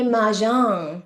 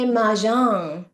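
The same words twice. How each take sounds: First: It is said with a fancy French-sounding pronunciation. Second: It is said with a fancy French-sounding pronunciation.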